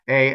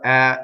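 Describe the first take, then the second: First: The vowel is closed, like in 'hey'. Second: The vowel is open, like in 'head'. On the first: "A as in hey" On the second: "A as in head"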